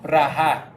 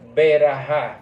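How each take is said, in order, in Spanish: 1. Las dos primeras consonantes van juntas, sin vocal. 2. Una vocal corta separa las dos primeras consonantes. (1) "pero en hebreo es" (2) "la gente dice berajá"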